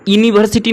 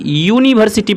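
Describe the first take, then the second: First: The word begins with a plain vowel sound. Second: The word begins with a y sound. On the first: The speaker calls it wrong. "इसे हम लोग यूनिवर्सिटी नहीं पढ़ते" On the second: The speaker calls it right. "यूनिवर्सिटी पढ़ते हैं"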